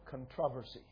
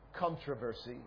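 First: The word has a British pronunciation. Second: The word has an American pronunciation. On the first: "I think some British people say" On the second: "we Americans say"

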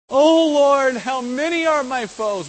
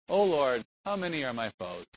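First: It is read with a desperate, overwhelmed feeling. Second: It is read calmly, without a desperate feeling. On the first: The speaker feels overwhelmed by enemies. The speaker calls it right. "We're right to read it like that" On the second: The speaker is not troubled by the enemies. The speaker calls it wrong. "It's not like"

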